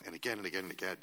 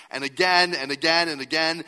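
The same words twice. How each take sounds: First: Said in the usual way. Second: "again" repeated loud and high; loud refrain. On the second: Shown as a demonstration. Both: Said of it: "repeated refrain".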